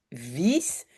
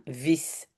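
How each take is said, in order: First: Long i in "vis"; "vis" with its vowel drawn out. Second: Short i in "vis"; "vis" with a quick, clipped vowel. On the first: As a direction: say "vis" with a held ee, as in "lire". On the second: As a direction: say "vis" with a brief i, as in "lit". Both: Shown as a demonstration. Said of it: "comme lit et lire".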